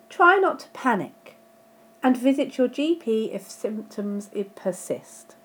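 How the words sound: It breaks clearly after 'panic'. Stay calm, and see your GP if symptoms continue. The speaker calls it right. "Let's put the comma back in. ... Now that makes a lot more sense"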